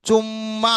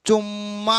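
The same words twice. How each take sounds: Both takes have the same delivery.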